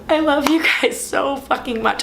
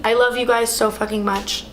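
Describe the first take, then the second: First: Tearful, high and slow; choking up on the love. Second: Said in the usual way. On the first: Real, not acted. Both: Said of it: "I'm trying not to cry".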